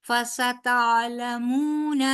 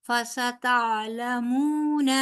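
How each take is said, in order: The two takes are said the same way.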